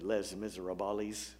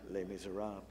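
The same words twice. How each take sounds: First: The title is pronounced with anglicized, rural Indiana sounds. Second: The title is pronounced the French way. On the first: This is how people back home said it. The speaker calls it wrong. "where we would have said Les Miserables" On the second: This is the standard way to say it. The speaker calls it right. "rather than Les Miserables"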